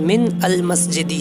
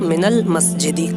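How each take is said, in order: First: Min and al are said as separate words. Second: Min and al are joined into minal. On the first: This is the underlying form of the words. "वरना मिन अल मस्जिदी है असल लफ्ज़" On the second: This is how it is read in connected speech. "जब मिलाकर पढ़ेंगे तो मिनल मस्जिदी"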